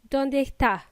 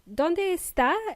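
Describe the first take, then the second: First: A Chilean accent swallows the s sound. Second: Every sound is pronounced, including the s.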